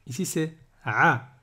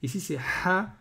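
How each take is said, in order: First: "a" squeezed from the throat; throat ain. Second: "ha" with a breathy throat h. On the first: Teacher comparing cousin letters, tight throat "a". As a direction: constrict the throat on "a". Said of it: "le a, il a un cousin". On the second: Teacher comparing cousin letters, airy throat "ha". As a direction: push air freely on "ha". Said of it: "il a un cousin, c'est le ha". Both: Shown as a demonstration.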